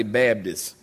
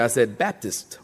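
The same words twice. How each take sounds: First: Baptist said as "Babdist" in North Carolina accent; low North Carolinian "Babdist". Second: Said in the usual way. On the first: Shown as a demonstration. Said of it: "Now I say Baptist". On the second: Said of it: "when I first got here".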